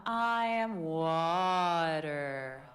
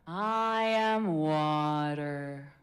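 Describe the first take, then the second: First: Very slow, steady calm voice; soothing water voice again. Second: Very slow, calm meditative voice; water voice. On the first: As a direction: draw it out like a meditation. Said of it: "Wanna try one more time now knowing that?". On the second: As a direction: let it flow slowly and evenly. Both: Shown as a demonstration.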